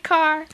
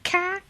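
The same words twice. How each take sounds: First: It has a general accent, with final r. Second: It has a Boston accent, no final r.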